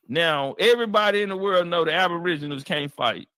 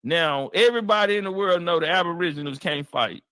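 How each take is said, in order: Both takes have the same delivery.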